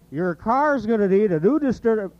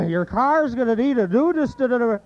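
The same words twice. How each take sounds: First: High Sid voice tripping on the word; higher fumbled Sid line; Sid impression, stumbling. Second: Higher Sid retry; Sid impression, stumbling again. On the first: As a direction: trip over distur-. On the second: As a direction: push harder at the word and fail. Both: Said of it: "you can do Sid".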